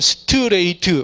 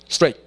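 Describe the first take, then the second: First: The word is said with five separate syllables. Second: The word is said as a single syllable. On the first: The speaker calls it wrong. "우리는 스트레이트 오음절이잖아요" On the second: The speaker calls it right. "원어민들 이름절이에요"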